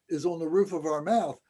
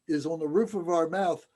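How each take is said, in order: No difference in how they are said.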